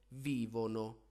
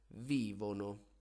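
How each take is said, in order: Both takes have the same delivery.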